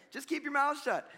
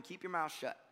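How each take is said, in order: First: Higher-pitched imitation of a nagging mom; raised-pitch motherly telling-off; scolding mother. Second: Said in the usual way. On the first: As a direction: scold like a mother who has had enough. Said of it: "It sounds like a mother". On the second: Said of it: "sounds like a mother".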